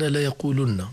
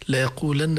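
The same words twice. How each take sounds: First: "يقولن" as yaqulunna, u before nn; damma on the lam. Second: "يقولن" as yaqulanna, a before nn; fatha on the lam. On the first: Teacher contrasts two forms, "يقولن" with a u. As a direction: say "يقولن" with u after the l. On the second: Teacher contrasts two forms, "يقولن" with an a. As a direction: say "يقولن" higher, with a after the l. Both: Shown as a demonstration. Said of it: "هذه ضمة اللام".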